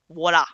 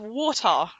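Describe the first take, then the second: First: The word is said with an American accent. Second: The word is said with a British accent. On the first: The speaker calls it right. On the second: The speaker calls it wrong.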